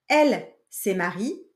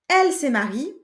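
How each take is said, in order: First: It is said at a slower speaking pace. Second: It is said at a normal speaking pace.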